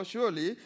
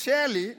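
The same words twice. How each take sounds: First: SURELY said with the vowel of "sure"; SURELY corrected, rounded "shoor" first syllable; corrected pronunciation. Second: SURELY said like the name Shirley; SURELY misheard as Shirley, punched loud; Shirley-like pronunciation. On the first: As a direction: say SURELY as "sure-lee", not Shirley. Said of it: "it's a sure thing". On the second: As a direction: say SURELY loudly with an "eh" vowel, like Shirley. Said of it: "no, surely". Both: Shown as a demonstration.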